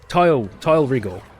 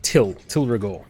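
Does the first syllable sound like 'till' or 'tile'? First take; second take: tile; till. First: The vowel rhymes with 'tile', a long I. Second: The vowel rhymes with 'till', a short I. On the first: This is how the game's character says it. "Now it's um, it's Tile" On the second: This is how players used to say it. "we'd always pronounced it Till Till Rigor"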